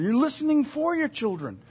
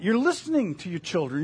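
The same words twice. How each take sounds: First: FOR punched higher than the rest; stress on FOR. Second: Said in the usual way. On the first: Real, not acted. Parent tuned to the children, stress on "for". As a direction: lift and lean on the word "for". Contrasts "for" with "to.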